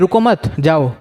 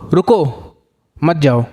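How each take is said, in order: First: There is a break after the second word. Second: There is a break after the first word. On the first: The listener is told not to stay but to leave. "मैंने यहाँ पे कर दिया एक comma" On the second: The listener is told to stay and not leave. "यानी मैं तुम्हें बोल रहा हूँ कि रुक जाओ, जाओ मत"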